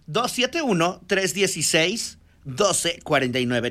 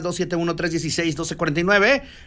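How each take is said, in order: First: It is said more slowly. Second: It is said at normal speed.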